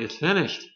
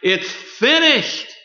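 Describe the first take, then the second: First: It is said with a tired sigh of relief. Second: It is said as a loud, triumphant cry.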